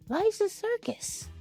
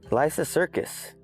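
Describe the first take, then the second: First: It is said in a creepy Pennywise-like voice. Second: It is said in his normal voice.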